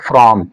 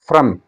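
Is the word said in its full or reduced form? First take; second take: full; reduced. First: It is said full and stressed. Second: It is said reduced and unstressed. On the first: The speaker calls it wrong. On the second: The speaker calls it right.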